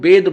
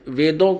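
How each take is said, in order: First: The word begins with a b sound. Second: The word begins with a v sound. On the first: This is how it is said in the mother tongue. "वेद बोलते हैं" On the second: This is the written, pure form. "जैसे वेदों को"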